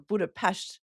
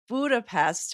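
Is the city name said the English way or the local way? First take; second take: local; English. First: It is said the way locals say it. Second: It is said the usual English way.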